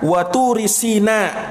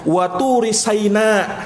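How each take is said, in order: First: The vowel after the s is i. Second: The vowel after the s is a. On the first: This is one traditional reading of the verse. "Dalam qiraahnya Ibnu Mas'ud dibaca waturi sina" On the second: This is another traditional reading of the verse. "di fathah huruf sinnya"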